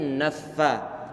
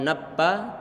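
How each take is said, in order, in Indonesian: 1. Huruf tengah memakai gigi pada bibir bawah. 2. Huruf tengah dibuat dengan kedua bibir. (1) "tapi naffa" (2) "Bukan nappa"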